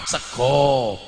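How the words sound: The word ends with an 'o' vowel. This is how standard Javanese speakers say it. "orang Jawa sego"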